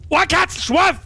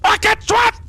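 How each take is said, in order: First: The word is said without aggression. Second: The word is said aggressively and forcefully. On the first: The speaker calls it wrong. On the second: The speaker calls it right.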